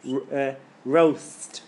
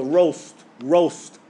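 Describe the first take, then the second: First: Roast said slowly with a thin light r; wrong light roast. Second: Roast with a heavy, full r. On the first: Teacher showing how roast sounds wrong. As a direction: say roast with an English r. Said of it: "You don't go". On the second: Teacher modelling roast with a heavy r. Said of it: "Heavy letter". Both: Shown as a demonstration.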